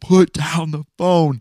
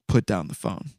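First: It is said in a deep booming voice. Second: It is said in a quieter voice.

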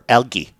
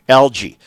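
First: The word is pronounced the British way. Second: The word is pronounced the American way.

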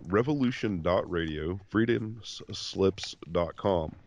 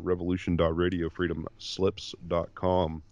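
First: It is said slowly. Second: It is said fast.

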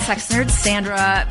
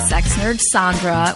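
First: The name is said in a plain, ordinary way. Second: The name is said in a deeper, sexier way. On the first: The speaker calls it wrong. "I have been saying" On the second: The speaker calls it right. "which makes you so much sexier"

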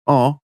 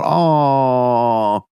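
First: The word is said short. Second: The word is stretched out long. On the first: "Or just A-W" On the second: "a nice, long, drawn-out"

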